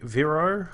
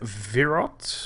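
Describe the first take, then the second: First: The name ends without any T sound. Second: The name ends with a sounded T.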